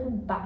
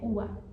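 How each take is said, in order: First: The middle consonant is a hard b sound. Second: The middle consonant is a soft b-v blend. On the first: The speaker calls it wrong. "não é uba" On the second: The speaker calls it right. "é ua"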